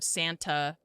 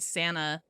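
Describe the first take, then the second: First: The t sound is clearly pronounced in the word. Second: The t sound is dropped from the word. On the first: "instead of Santa" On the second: "I say Santa"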